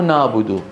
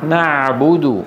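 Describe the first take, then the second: First: The ain sounds like a heavy, vowel-like a. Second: The ain is a tight throat consonant. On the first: The speaker calls it wrong. "يا أخي مو نعبد" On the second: The speaker calls it right. "وإنما إيه نعبد"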